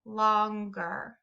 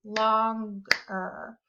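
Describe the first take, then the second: First: "Longer" said slowly with a rise, two clear jaw drops; syllables felt on chin. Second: "longer" split as lon-ger, one clap per part; clapped syllables. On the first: Teacher demonstrating the chin trick, slow with a rising end. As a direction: stretch "Longer" so the chin bobs twice. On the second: Teacher showing how to clap out syllables, split in two. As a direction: tap out "longer" in two beats. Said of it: "I might clap it out like this". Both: Shown as a demonstration.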